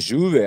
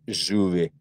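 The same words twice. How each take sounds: First: It is said with a standard Spanish accent. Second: It is said with an Argentine Spanish accent. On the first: "по-испански" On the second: "а Аргентина говорит"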